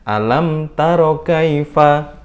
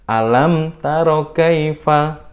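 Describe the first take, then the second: The two takes are said the same way.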